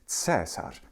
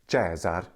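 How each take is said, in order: First: It uses the German-Slavic Latin pronunciation. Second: It uses the ecclesiastical Latin pronunciation. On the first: "that lovely German Slavic pronunciation of Latin" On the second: "Caesar in the ecclesiastical Latin pronunciation"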